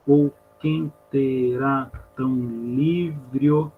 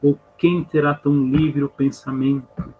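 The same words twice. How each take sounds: First: Very slow, each syllable of QUEM TERÁ stretched apart. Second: Said in the usual way. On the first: Shown as a demonstration. Teacher showing students the elision, syllable by syllable. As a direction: drag it out, linking LIVRE O into one syllable. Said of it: "acontece aquilo que chama de elisão". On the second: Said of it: "a gente viu semana passada".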